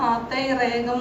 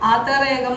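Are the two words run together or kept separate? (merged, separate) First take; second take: separate; merged. First: The two words are kept apart, each fully pronounced. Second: The two words run together quickly into one word.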